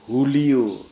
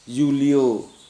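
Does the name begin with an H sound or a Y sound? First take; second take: H sound; Y sound. First: The name begins with an H sound. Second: The name begins with a Y sound. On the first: "menjadi H"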